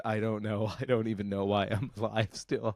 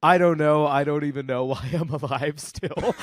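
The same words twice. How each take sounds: First: Put-on soft, dry old aunt with a faint laugh; retelling the great aunt's dry line, quiet and deadpan. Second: Put-on loud, chuckling old aunt; great aunt on the phone, amused and laughing. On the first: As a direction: say it low and weary as the aunt. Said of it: "the fact that my great aunt said". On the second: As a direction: laugh through the line as the aunt. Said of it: "my great aunt goes".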